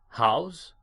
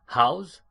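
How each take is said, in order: The two takes are said the same way.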